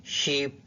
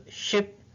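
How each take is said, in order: First: "sheep" with a long, tense ee; long ee vowel in "sheep" for the minimal pair; minimal pair word. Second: "ship" with a short, lax i, said higher; "ship" clipped short, set against "sheep"; short i in "ship" for the minimal pair; minimal pair word. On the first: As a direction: stretch the ee in "sheep", set against "ship". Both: Shown as a demonstration. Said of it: "For example".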